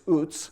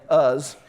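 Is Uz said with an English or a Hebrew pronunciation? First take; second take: Hebrew; English. First: It is said with a Hebrew pronunciation. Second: It is said with an anglicized pronunciation. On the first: The speaker calls it right. "actually in Hebrew it's" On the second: The speaker calls it wrong. "I've gone years calling it"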